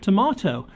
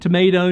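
First: It is said with a British pronunciation. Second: It is said with an American pronunciation. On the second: "I'm learning to talk American, y'all. I'm learning to say"

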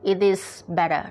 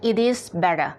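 First: It is said as three full separate words. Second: The same.

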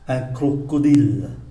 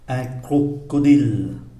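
First: It is said at a faster pace. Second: It is said at a slower pace.

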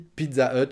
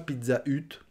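First: The h at the start of Hut is silent. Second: The h at the start of Hut is pronounced. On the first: The speaker calls it right. "sauf qu'on prononce pas le, le H de Hut" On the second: The speaker calls it wrong. "On dit pas Pizza Hut"

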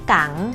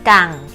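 First: The syllable has a rising tone. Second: The syllable has a level mid tone.

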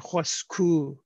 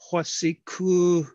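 First: The short middle vowel is dropped. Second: The short middle vowel is kept. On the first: "they'll say hwasku" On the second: "Instead of saying hwasiku"

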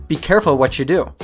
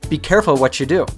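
No difference in how they are said.

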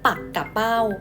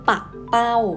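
First: The word is said with three syllables. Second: The word is said with two syllables. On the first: It names a kind of sea fish. "อ่านแบบแรกนะคะลูก ... อ่านว่าปักกะเป้า" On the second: It names a kind of kite. "แบบที่สองจะอ่านได้ว่าปักเป้า"

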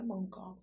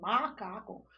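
First: The first vowel is nasalized before the m. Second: The first vowel is plain and oral. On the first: The speaker calls it wrong. "Não é mancaco" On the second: The speaker calls it right. "é macaco"

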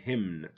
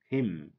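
First: The final N is pronounced. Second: The final N is silent. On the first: The speaker calls it wrong. "don't say hymn" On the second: The speaker calls it right. "without the N"

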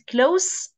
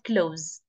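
First: The word ends with a hissing s sound. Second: The word ends with a buzzing z sound. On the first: It describes something near or intimate. The speaker calls it right. "as an adjective, it's pronounced se" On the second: It is the verb meaning to shut. The speaker calls it wrong. "not ze"

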